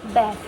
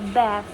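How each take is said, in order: First: It is said in an American accent. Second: The same.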